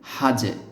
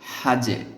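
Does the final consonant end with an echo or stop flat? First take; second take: echo; echo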